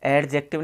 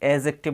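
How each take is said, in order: First: The d sound is pronounced. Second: The d sound is silent. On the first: The speaker calls it wrong. "इसको अपन एडजेक्टिव नहीं बोलते हैं" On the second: The speaker calls it right. "इसमें डी silent हो गया"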